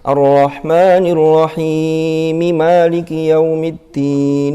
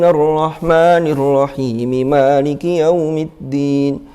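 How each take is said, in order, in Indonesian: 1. Vokal pada rahim dibaca panjang. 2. Vokal pada rahim hanya dibaca sebentar.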